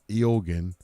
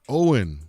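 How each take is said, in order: First: The name is said like 'Eogan'. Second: The name is said like 'Owen'. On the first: The speaker calls it wrong. "you pronounce this name not Eogan" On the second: The speaker calls it right. "but he told it to me. I think it's uh, Owen"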